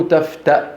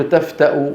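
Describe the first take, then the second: First: تفتأ cut short on a glottal stop, tafta'; pausal reading. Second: تفتأ ending in a voweled hamza, tafta-u; linked reading. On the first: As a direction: end تفتأ on a vowelless hamza. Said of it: "وإذا وقفوا". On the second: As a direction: say تفتأ as taf-ta-u. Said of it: "كل القراء بيقولوا تفتأ". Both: Shown as a demonstration.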